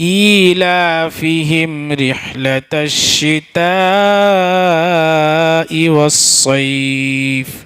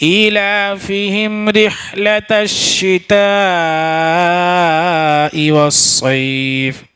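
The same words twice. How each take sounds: No difference in how they are said.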